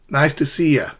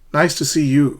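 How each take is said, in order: First: The last word is reduced to ya. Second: The last word is a full you. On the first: "you could say nice to see ya to somebody you know really well" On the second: "you could say nice to see you"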